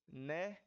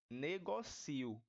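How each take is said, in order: First: "negócio" stressed on GÓ, final io together; substantivo negócio. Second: "negocio" slowly, stressed as ne-go-CI-o; verbo negocio. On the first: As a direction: say "negócio" as ne-GÓ-syo. ("negócio" com a tônica no GÓ) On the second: ("negocio" devagar, com a tônica no CI) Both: Shown as a demonstration. Contrasts noun and verb form.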